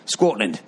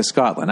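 First: "Scotland" in a badly faked Scottish accent. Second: Said in the usual way. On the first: Podcaster echoing a fan's letter, bad Scottish accent. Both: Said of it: "that was my bad Scottish accent".

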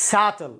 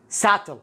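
The two takes are said the same way.

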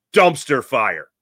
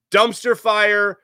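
First: Said in the usual way. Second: Dumpster drawn out slow and higher; stress on Dumpster. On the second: Shown as a demonstration. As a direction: lean hard on Dumpster, stretched.

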